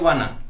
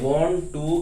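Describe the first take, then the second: First: The words blend into one reduced word. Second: Both words are said fully and separately. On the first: The speaker calls it wrong. "Short form होती है वाना" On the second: The speaker calls it right. "वांट टू ही बोलना चाहिए"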